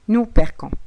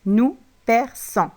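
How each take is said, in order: First: The middle consonant is a hard k sound. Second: The middle consonant is a soft s sound. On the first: The speaker calls it wrong. "Pour ne pas prononcer le verbe ainsi" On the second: The speaker calls it right. "Car on doit le prononcer nous perçons"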